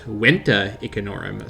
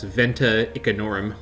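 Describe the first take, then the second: First: The name begins with a W sound. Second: The name begins with a V sound. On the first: The speaker calls it right. "It actually would be pronounced Wenta Icanorum" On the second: The speaker calls it wrong. "called this place Venta Icanorum, like a pleb"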